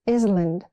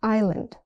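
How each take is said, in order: First: The S sound is pronounced in the word. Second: The S sound is left out of the word. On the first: The speaker calls it wrong. "It's not island" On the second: The speaker calls it right. "The S is silent"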